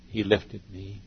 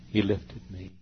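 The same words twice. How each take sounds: The two takes are said the same way.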